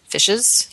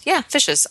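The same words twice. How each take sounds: First: "Fishes?" asked back with a doubting rise; questioning Fishes?. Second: "Yeah, fishes." with a high, firm yeah; defiant insistence. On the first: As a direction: query the word "Fishes?" as if unsure. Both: Real, not acted. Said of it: "I stand by that".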